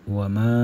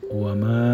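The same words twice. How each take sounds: The two takes are said the same way.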